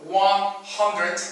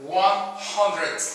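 First: "one hundred" again with a clear final d; final D repeated. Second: "One hundred" with the final d clearly said. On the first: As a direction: repeat it, ending on the d. (repitiendo con la d final marcada) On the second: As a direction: land on the d of "hundred". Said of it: "Termina con D". (marcando la d final de "hundred") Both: Shown as a demonstration.

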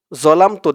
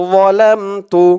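First: Said in the usual way. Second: যালামতু with a heavy, full-mouthed opening. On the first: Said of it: "দেওয়া আছে জলামতু". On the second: Shown as a demonstration. Teacher correcting the Bangla spelling, full-mouthed. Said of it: "আমাদের উচ্চারণ করতে হবে".

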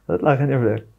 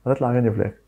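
First: Said fast through a laugh; quick laughing repeat. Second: Said in the usual way. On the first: Real, not acted. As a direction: laugh it out, told you so. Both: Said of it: "مش بقول لك؟".

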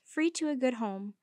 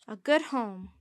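First: Said in the usual way. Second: "good" leaned on, falling, a touch louder; Jean teasing Mandy, quoting "A good home" with weight on "good"; quoting, stress on good. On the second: Acted. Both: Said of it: "she quoted".

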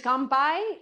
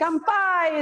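First: "kanpai" with a questioning rise at the end; unsure kanpai. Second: "Kanpai" said higher and louder, falling firmly; confident kanpai. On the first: Instructor unsure of the toast word asks her partner, rising "kanpai". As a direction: try out "kanpai" tentatively, lifting the end. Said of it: "is Japanese?". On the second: Instructor confirming the toast word to her partner, firm falling "Kanpai". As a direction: state "Kanpai" with confident certainty. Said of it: "is Japanese". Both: Real, not acted.

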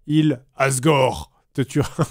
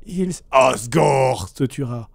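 First: Demonic voice. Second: Slow, low menacing demon voice; demonic voice. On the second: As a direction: drag out a low demonic threat. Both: Retold or imitated. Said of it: "une voix démoniaque".

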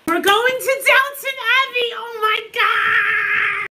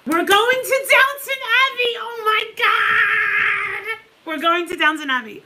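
First: High, loud excited shout stretched into a cry; ecstatic, nearly crying; thrilled shriek. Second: High, loud replay of the excited cry; reliving the thrill, half crying; retold joyful shriek. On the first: Real, not acted. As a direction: scream with joy at the news. Landing at Downton trip, shrieking. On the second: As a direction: re-enact the shriek of joy. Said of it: "I'm like".

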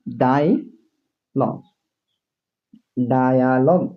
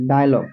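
First: dialogue drawn out very slowly, syllable by syllable; slow demo. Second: Said in the usual way. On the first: Shown as a demonstration. Teacher to students, spelling out dialogue very slowly. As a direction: stretch dialogue out slowly so students hear each sound. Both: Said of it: "দেখছো?".

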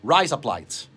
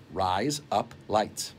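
First: Razor blades said as "Rise up lights" in Australian; Australian accent, quick and casual. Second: "Rise up lights" drawn out, lower and softer in Australian; Australian accent, spelled out slowly. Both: Shown as a demonstration. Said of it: "how to say razor blades in Australian".

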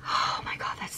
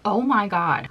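First: Voiceless, hushed "Oh my God"; whispered awe. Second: Said in the usual way. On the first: Real, not acted. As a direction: breathe it out in rapture. Smelling again, breathy.

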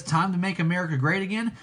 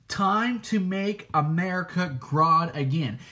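First: Quick plain read of the slogan with great; quoting Trump. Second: Grodd stressed instead of great; slow reading that leans on Grodd; quoting Grodd. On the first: Contrasting with Trump, a quick mild slogan read. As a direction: rattle off the familiar Trump slogan lightly. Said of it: "How Trump says". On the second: Telling listeners about the show, a slow pointed Grodd. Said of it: "Grodd says". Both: Retold or imitated.

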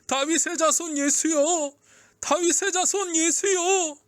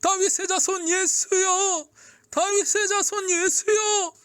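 First: High, drawn-out call to Jesus; crying out. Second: Very high, drawn-out desperate shout; crying out even harder. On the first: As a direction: call out slowly over a crowd. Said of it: "향해 외쳤어요". (목청껏 외치는 소리) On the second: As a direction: call with every last bit of strength. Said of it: "더 크게 외쳤어요". (젖먹던 힘까지 다한 외침) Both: A narrator's reading.

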